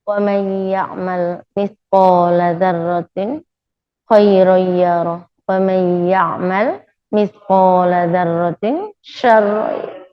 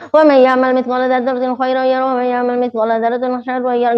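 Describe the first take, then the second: First: The verse is recited slowly. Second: The verse is recited quickly.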